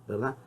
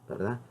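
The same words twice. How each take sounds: The two takes are said the same way.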